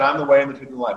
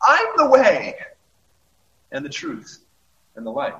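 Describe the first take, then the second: First: The words are blurred together without emphasis. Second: The word 'way' is clearly emphasized.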